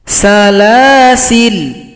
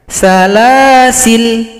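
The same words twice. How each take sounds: No difference in how they are said.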